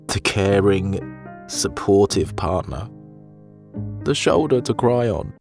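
It is read with strong, heartfelt emotion.

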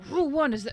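It is said in a put-on character voice. "that's Hudson's voice"

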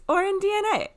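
The phrase is said with lively enthusiasm. The speaker finds the fact exciting. The speaker calls it right. "It's or in DNA"

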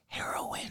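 The word is whispered.

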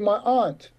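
Aunt is said the way Black Americans tend to.

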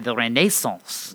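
The word is pronounced in an exaggerated posh way.

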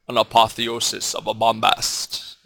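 It is said in a deep, resonant Mister Echo voice.

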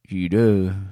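It is mumbled like a Western cowboy.

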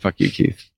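It is said in a playful, teasing way.

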